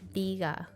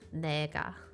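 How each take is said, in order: First: The first syllable is said as 'ni'. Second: The first syllable is said as 'ne'. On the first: The speaker calls it right. "pronounced as ni" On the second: The speaker calls it wrong. "not pronounced as ne"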